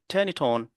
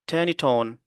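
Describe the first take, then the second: First: The final consonants link into the following vowels. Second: The final consonants link into the following vowels.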